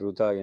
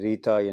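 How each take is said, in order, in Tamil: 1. இந்தச் சொல் roo ஒலியில் தொடங்குகிறது. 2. இந்தச் சொல் ree ஒலியில் தொடங்குகிறது. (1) "தென்னிந்தியாவில் ருதா என்று உச்சரிக்கிறார்கள்" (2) "இந்தியாவில் பொதுவாக இதை ரீதா என்று"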